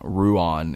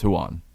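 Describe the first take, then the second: First: The name starts with an English R sound. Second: The name starts with a breathy H-like sound. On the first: The speaker calls it wrong. "it's not Ruan" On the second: The speaker calls it right. "the R is is more of an H or Spanish J"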